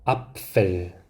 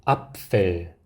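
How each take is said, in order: No difference in how they are said.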